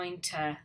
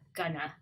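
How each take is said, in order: First: Both words are said fully and separately. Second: The words blend into a reduced "gonna".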